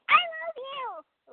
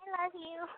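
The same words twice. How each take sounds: First: It is said with strong, over-the-top feeling. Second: It is said softly, less intensely.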